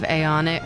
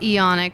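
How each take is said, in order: First: The initial a sound is pronounced. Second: The initial a sound is silent. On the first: This is how the speaker personally prefers it. "I always want to say aeonic" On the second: This is how others officially say it. "I know they call it eonic"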